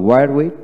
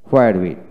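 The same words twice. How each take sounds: First: Where in "where with" with a plain w; British "wear" in "where with"; British pronunciation. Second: Where in "where with" starting on hw; American "hwear" in "where with"; American pronunciation. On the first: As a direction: drop the h in where, ending on a rise. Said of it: "হোয়াইট হলো British". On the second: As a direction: sound the h in where, ending on a fall. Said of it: "হোয়াইট হলো American". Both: Shown as a demonstration.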